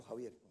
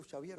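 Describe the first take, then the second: First: "Javier" with the rough Spanish jota at the start; "Javier" with a throaty h sound, Spanish style. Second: "Xavier" said with a soft sh sound at the start, like shavier; "Xavier" starting with a French-style sh. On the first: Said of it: "Yo digo Xavier o Javier". ("Javier" con jota española áspera al inicio) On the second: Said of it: "¿Se dice Xavier?". ("Xavier" pronunciado con sh inicial, como "shavier") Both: Shown as a demonstration.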